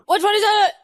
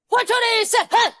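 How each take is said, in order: First: The words are rolled together into one word. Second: The words are said separately with breaks.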